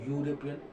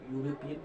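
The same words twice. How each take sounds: The two takes are said the same way.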